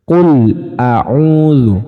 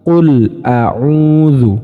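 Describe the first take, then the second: The two takes are said the same way.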